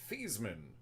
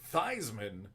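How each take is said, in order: First: The first part does not rhyme with Heisman. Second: The first part rhymes with Heisman. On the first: This is the traditional version of the name. "traditionally, if you ask him, it's Joe Theismann" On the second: This is the version adopted in college. "he switched the pronunciation to Theismann because of the Heisman Trophy"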